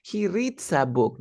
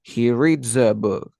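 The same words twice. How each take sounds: First: "reads a" said as "reet-sa" in "he reads a book"; higher, slow mistaken "he reads a book" with hissed ts; wrong S linking. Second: "reads a" said as "reed-za" in "he reads a book"; slow, emphatic "he reads a book" with buzzed dz; correct Z linking. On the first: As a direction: hiss the s in "reads", no voicing. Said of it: "No es". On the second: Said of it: "no es". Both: Shown as a demonstration.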